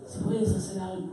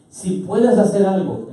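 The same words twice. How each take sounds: First: Soft, tentative plea; hushed, unsure request; doubting father. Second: Slow, raised-pitch quote; slow, emphatic plea; father's request. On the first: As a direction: ask it quietly, half-believing. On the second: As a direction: state the request slowly and firmly. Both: Acted. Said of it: "El padre le dice a Jesús, ¿cómo?".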